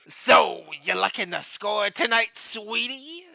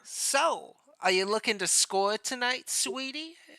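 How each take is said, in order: First: It is said in a raspy Selma-like voice. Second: It is said in a plainer character voice.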